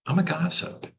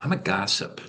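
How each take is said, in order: First: I'm a gossip pitched up high and playful; high playful confession. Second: Said in the usual way. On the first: Shown as a demonstration. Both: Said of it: "Bad attitude could be".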